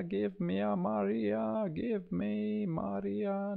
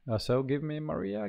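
First: "give me Maria" lifted much higher, slow and playful; high singsong plea. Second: Said in the usual way. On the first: Pretend. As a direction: coax the software in a high sung-out voice. Asking the software for Maria.

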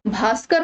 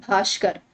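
First: भास्कर with a clean "s" sound; correct pronunciation. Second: भास्कर with a "sh" for the स; wrong pronunciation. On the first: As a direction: say भास्कर as "bhaaskar". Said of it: "भास्कर होता है". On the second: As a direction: say भास्कर as "bhaashkar". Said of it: "C option वाला गलत है". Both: Shown as a demonstration.

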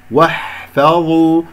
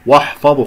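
First: واحفظوا with a thin waw and ha; correct lightness. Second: واحفظوا with a thick, dark "woh"; faulty heavy opening on واحفظوا; mistaken heaviness. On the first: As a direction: slowly recite واحفظوا with a light "wah-fa". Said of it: "وأنا فخمت الواو والحاء". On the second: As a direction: wrongly thicken waw and ha in واحفظوا. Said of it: "خطأ". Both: Shown as a demonstration.

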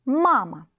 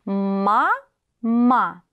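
First: Said in the usual way. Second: «Ма-ма» split into two slow syllables with a break between them; sounding out words. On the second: Shown as a demonstration. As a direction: spell out «Ма-ма» syllable by syllable, pausing between. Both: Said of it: "сливаем слоги в слова".

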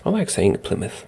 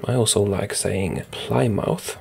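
First: Said in the usual way. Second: Plymouth said as Ply-mouth, rhyming with mouth; slow, savouring Plymouth as PLY-MOUTH; playful mispronunciation. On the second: Shown as a demonstration. Gamer enjoying the town name, saying Plymouth as Ply-mouth.

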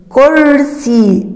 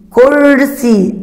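First: Slow sounding out. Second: كرسي said again with the ر rolled; teacher pointing out كرسي; slightly faster confirming take. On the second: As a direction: confirm the word after showing it. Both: Shown as a demonstration. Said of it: "استمع".

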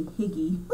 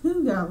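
First: "Higgy" as an English-style spelling reading; "Higgy" with a short i and hard g; personal pronunciation. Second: "Hygge" with an oo-like first vowel, not "Higgy"; correct pronunciation. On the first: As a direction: say "Higgy" her own way, like it is spelled. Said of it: "but it's pronounced Hygge". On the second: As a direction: say "Hygge" as HOO-guh, pitched up. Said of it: "it's pronounced Hygge". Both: Shown as a demonstration.

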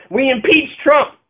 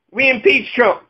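First: Slow, higher, each word leaned on; emphatic repeat. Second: Said in the usual way. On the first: Shown as a demonstration. Ranter spelling out the plan to listeners, slow and emphatic. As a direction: spell it out like a promise.

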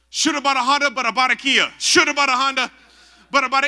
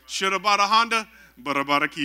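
First: Loud, high mock praying in tongues; faked tongues. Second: A punchline reprise of fake tongues; toned-down faked tongues. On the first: Friend faking tongues to escape altar call, loud mock chant. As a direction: belt it out as badly faked tongues. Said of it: "I gotta fake it or something". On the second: Preacher repeating friend's faked tongues, toned-down mock chant.

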